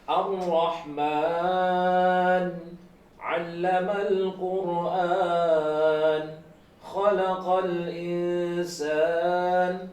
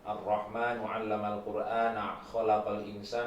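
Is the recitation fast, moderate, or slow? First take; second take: slow; fast. First: It is recited at a slow pace. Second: It is recited at a fast pace. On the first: "ini lebih pelan lagi gitu" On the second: "bacaan yang cepat"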